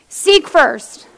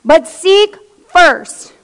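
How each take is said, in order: First: Said in the usual way. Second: "But seek first" stretched out very slowly and louder, leaning on "seek"; slow emphatic. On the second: Shown as a demonstration. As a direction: drag "But seek first" out word by word, pressing on "seek".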